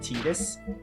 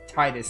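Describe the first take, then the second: First: The first syllable sounds like 'tee'. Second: The first syllable sounds like 'tide'. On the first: The speaker calls it wrong. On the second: The speaker calls it right.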